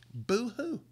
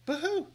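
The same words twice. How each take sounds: First: Mocking boo-hoo, higher, a put-on sniffle; mock sob. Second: A much higher, squeaky mock boo-hoo; mock sob higher. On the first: Vlogger mocking the hedge fund's losses with a fake sob. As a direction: fake a crybaby's whimper. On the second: Vlogger sneering at hedge fund losses, squeaky mock sob. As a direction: whine it like a sulking child.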